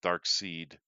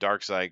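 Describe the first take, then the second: First: The second syllable rhymes with 'need'. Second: The second syllable rhymes with 'ride'. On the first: This is how the spelling suggests it. The speaker calls it right. "it really should be pronounced Dark Seed" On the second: This is how it is usually said. The speaker calls it wrong. "we call it Dark Side"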